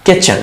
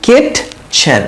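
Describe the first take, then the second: First: "কিচেন" run together as ki-chen; silent t. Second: "কিটচেন" broken slowly into kit and chen; t sounded out. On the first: Teacher models it for learners, "কিচেন" joined with the t silent. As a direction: say "কিচেন" in one go, no separate t. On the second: Teacher splits the spelling for learners, "কিটচেন" as kit, pause, chen. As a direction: say "কিটচেন" in two parts with an audible t. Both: Shown as a demonstration. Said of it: "টিটা উচ্চারণ হয় না".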